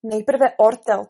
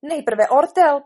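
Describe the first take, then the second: First: Slow, loud mocking quote; scornful echo. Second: Loud, high, slow insistence; protesting. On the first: Alice quotes the queen's silly rule, scornful. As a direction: throw the queen's words back slowly. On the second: Acted. Queen overrules the king on procedure, protesting. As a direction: insist on it, slowly and loudly. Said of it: "protestovala královna".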